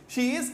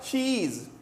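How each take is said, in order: First: It is said as two separate words. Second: It is merged into one short syllable.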